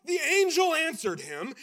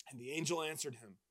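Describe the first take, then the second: First: Louder, with "angel" rising as a correction; correcting the retelling. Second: Said in the usual way. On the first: Shown as a demonstration. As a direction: restart the line with emphasis on "angel". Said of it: "That's not what". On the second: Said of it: "no. That's not what".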